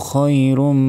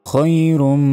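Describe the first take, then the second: The two takes are said the same way.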